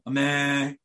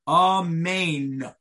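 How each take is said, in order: First: The word is clipped, with part of it lost. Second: The word is said fully, every sound pronounced. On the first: The speaker calls it wrong. "an amen ketufa of where it's cut off, where you lose part of the word" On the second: The speaker calls it right. "You have to say the whole pronunciation"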